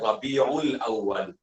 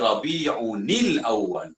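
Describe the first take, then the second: First: The words join with no 'n' sound between. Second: The words join with an 'nil' sound between. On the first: This is the everyday simplified reading. The speaker calls it wrong. "dimudahkan bacaan dengan Rabiul Awwal" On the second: This follows the strict grammatical rule. The speaker calls it right. "Yang tepatnya dibaca Rabi'unil Awwal"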